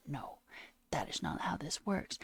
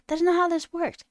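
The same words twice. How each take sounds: First: Breathless incredulous whisper. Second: Loud, higher outraged shout; exasperated shout. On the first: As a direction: hiss it out in disbelief, nearly silent. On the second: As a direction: blast it out in outrage. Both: Real, not acted. Rant, whispered then shouted.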